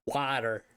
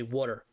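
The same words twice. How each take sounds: First: "water" with an open "wah" vowel; standard water. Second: "water" with a rounded "aw" vowel, like "wooder"; Philly "water". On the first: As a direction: say "water" the usual American way, "wah-ter". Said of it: "we don't say water". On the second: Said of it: "We say water". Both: Shown as a demonstration.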